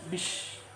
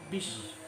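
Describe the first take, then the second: No difference in how they are said.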